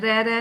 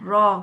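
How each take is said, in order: First: The vowel is short and neutral. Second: The vowel is long and open. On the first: The speaker calls it wrong. "रह रह नहीं कहना" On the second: The speaker calls it right. "रॉ कहना"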